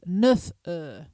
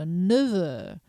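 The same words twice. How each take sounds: First: The F sound of neuf is pronounced. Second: The F sound of neuf is dropped. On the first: The speaker calls it wrong. "That would be incorrect" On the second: The speaker calls it right. "Notice I'm not saying the F"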